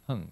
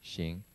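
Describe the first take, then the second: First: The syllable is read as hang. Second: The syllable is read as xing. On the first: This is the reading used for this text. The speaker calls it right. "we're saying it's Hun" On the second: This is the reading used in other contexts. The speaker calls it wrong. "We don't say Xing"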